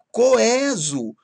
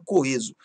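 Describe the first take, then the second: First: COESO with open é, higher; timbre aberto. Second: COESO with closed ê; timbre fechado. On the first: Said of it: "têm timbre aberto". (coeso com é aberto) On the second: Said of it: "se aceite da minha forma". (coeso com ê fechado) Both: Shown as a demonstration.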